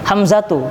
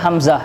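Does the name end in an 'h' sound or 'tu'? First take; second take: tu; h. First: The name ends with a full 'tu' syllable. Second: The name ends with a soft 'h' sound. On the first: "Ini akhirnya tak marbuta" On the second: "kita baca Hamzah"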